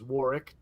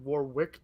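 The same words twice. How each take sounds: First: The second 'w' sound is left out. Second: The second 'w' sound is pronounced. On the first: The speaker calls it right. "you don't pronounce the second W" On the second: The speaker calls it wrong. "his name isn't Warwick Davis"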